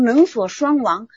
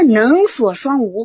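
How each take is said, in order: First: The last syllable is pronounced wang. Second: The last syllable is pronounced wu. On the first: "念成能所双亡" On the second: "这个王其实在古汉语里也做无讲"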